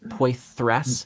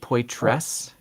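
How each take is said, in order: First: The middle consonant is a th fricative. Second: The middle consonant is a plain t. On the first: "I've been pronouncing it like a, an unaspirated or an unvoiced, um, what was it, alveolar dental, dental fricative" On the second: "But did you just say"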